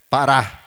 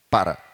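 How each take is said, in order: First: The stress is on the last syllable. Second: The stress is on the first syllable. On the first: The new looper needs two presses to stop. The speaker calls it wrong. "virou uma oxítona" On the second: The old looper stopped with one button press. The speaker calls it right. "paroxítona"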